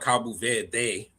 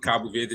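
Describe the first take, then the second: First: The final vowel is stretched out long. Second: The final vowel is short and clipped. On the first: The speaker calls it wrong. "don't try to stretch out that e" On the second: The speaker calls it right. "just remove the e at the end"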